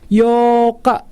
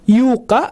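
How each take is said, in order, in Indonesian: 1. Vokal adalah satu bunyi o panjang. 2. Vokal diucapkan seperti bunyi u. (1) "dibacanya dua harkat panjang" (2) "atau dibaca Yuka, bukan seperti itu"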